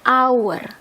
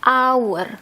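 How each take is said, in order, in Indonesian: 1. Kata ini langsung diawali dengan bunyi vokal. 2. Kata ini langsung diawali dengan bunyi vokal.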